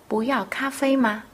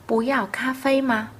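Both takes have the same delivery.

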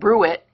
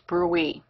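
First: The word ends with a clear t sound. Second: The word ends in an ee sound. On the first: The speaker calls it wrong. "It's not brew it" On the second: The speaker calls it right. "That's the appropriate pronunciation"

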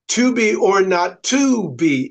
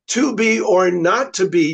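First: The stress is on "to". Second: The stress is on "not".

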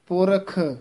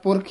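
First: The final kh sound is clearly pronounced. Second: The final kh sound is dropped. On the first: The speaker calls it right. "खखा शुद्ध उच्चारण करना है" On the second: The speaker calls it wrong. "कई बार खखा रह जाता है"

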